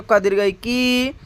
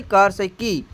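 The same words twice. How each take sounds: First: क दीर्घ ई की with final की drawn out; teacher's stretched long-vowel की; long i demo. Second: क हर्ष ई की with a short final की; teacher's short-vowel की; short i demo. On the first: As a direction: hold the ee of की long and level. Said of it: "यह है बड़ी ई". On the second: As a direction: say की briefly, letting it drop. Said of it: "यह छोटी ई". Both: Shown as a demonstration.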